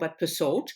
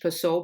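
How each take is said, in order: First: The final D is pronounced. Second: The final D is silent. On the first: The speaker calls it right. "it's a not a silent D" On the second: The speaker calls it wrong. "a silent D like the French"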